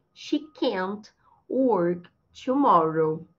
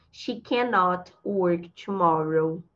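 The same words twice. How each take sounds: First: Very slow, "can't" as one syllable; word by word, pausing after "can't"; deliberate model sentence with "can't"; contracted CAN'T. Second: Slow, lower example with full "cannot"; deliberate model sentence, "cannot" unshortened; uncontracted CANNOT. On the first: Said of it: "Usando a contração". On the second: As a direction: say "cannot" in two whole syllables, slowly. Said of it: "posso usar esse cannot contraído". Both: Shown as a demonstration.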